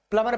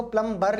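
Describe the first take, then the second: First: प्लम्बर said as plummer, no ब sound; silent B. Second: प्लम्बर with the ब clearly voiced after म; mispronunciation with sounded B. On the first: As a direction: drop the B in प्लम्बर, going from म straight to the ending. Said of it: "प्लम्बर पढ़ते हैं". (प्लम्बर में ब मौन, प्लमर जैसा उच्चारण) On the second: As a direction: say प्लम्बर as plum-bar, sounding the B. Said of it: "इसको प्लम्बर नहीं पढ़ते". (प्लम्बर में ब का साफ़ उच्चारण) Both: Shown as a demonstration.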